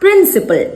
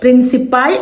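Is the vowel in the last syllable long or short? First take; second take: short; long. First: The last syllable has a short 'al' vowel. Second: The last syllable has a long 'aal' vowel. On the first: The speaker calls it right. "പ്രിൻസിപ്പൽ എന്നാണ് പറയേണ്ടത്" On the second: The speaker calls it wrong. "പ്രിൻസിപ്പാൾ എന്നല്ല കേട്ടോ പറയാ"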